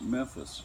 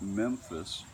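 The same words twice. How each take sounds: First: The first syllable's M is quickly, lightly touched. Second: The first syllable's M is fully pronounced. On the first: "you say quicker and just touch in passing on the final letter of the first syllable" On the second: "the first syllable fully pronounced and ending with a rounded labial M"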